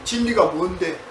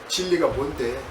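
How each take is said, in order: First: It is said with a scornful, mocking sneer. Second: It is muttered quietly to oneself.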